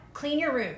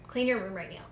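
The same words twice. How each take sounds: First: Said in the usual way. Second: Soft, low self-talk; quiet inner voice. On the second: Retold or imitated. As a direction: lower and much softer, drifting inward. Inner voice giving a silly impulse.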